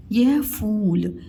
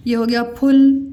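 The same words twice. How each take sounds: First: फूल with a long held uu. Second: फुल with a short clipped u. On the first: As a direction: stretch the uu in फूल. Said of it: "ज़्यादा समय लगता है". (फूल में लंबा ऊ खींचकर) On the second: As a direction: say फुल quickly, short vowel. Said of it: "लिख दो फुल". (फुल छोटे उ के साथ, जल्दी) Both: Shown as a demonstration.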